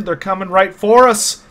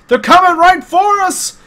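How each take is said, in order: First: Said in the usual way. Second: High, loud, drawn-out warning cry; alarmed shout. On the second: Acted. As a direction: shout it out, stretching each word.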